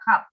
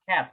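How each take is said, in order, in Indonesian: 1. Vokalnya bunyi a terbuka yang murni. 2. Vokalnya di antara e dan a. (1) "Kalian nggak baca cat" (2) "agak pertengahan antara E sama A"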